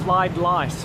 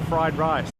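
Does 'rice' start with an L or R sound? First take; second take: L sound; R sound. First: The second word starts with an L sound. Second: The second word starts with an R sound.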